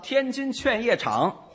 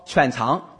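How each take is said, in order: First: All five syllables are pronounced in full. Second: It is squeezed into just two syllables. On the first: "这是几个字？" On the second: "天津一说天津劝业场"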